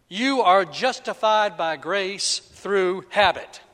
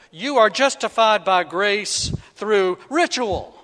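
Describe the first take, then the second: First: Slow, deliberate misquote ending on habit; mock misquote. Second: Louder deliberate misquote ending on ritual; mock misquote. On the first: Preacher misquoting Romans on purpose, slow and deliberate. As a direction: read it out slow and sure, landing on "habit". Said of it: "Right? No, that's not it". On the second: Preacher trying a second wrong version, louder and sure. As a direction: declare it with confidence, landing on "ritual". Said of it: "no, that's not it". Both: Shown as a demonstration.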